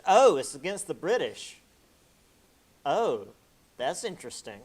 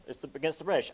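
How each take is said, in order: First: Loud, rising "Oh, it's against the British" as the penny drops; mock realization. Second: Said in the usual way. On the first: The French catching on, in mock surprise. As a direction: play the sudden dawning of "British", louder.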